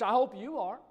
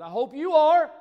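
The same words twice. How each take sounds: First: It is said flatly, without energy. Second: It is said loudly, with energy.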